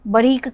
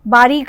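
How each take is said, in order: First: The 'aa' vowel is cut short. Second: The 'aa' vowel is held long.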